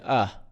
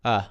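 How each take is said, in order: First: The word is reduced to a weak vowel sound. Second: The same.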